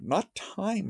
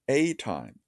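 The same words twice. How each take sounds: First: "time" pitched high, without an article; stress on time. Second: "a" as a full "ay", leading into falling "time"; stress on a. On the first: Lecturer correcting the reading to a time, "time" stressed high. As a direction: lift "time" high to set it apart. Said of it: "mind you, a time". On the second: Lecturer correcting not time but a time, "a" stressed. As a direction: punch "a" as "ay" before "time". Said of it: "Not time, mind you, a time". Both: Shown as a demonstration.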